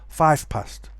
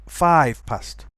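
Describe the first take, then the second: The two takes are said the same way.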